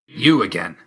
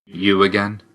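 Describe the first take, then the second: First: YOU stressed, again falling away; you again as a falling remark; falling tune on you again. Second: You again, asked as a question; rising close on you again; questioning rise on again. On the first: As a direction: hit you, then let again drop. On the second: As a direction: lift the end of again. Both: Acted. Game lines, alternate takes of phrase.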